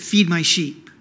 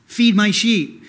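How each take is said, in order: First: FEED pressed firm and falling; stress on feed. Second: FEED said louder with a falling close; stress on feed. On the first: Pastor pressing Jesus' words on the church, stressed. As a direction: lean on the word feed. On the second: Pastor repeating Jesus' command for emphasis, stressed. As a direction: land hard on feed. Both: Shown as a demonstration. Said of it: "he said it three times for emphasis".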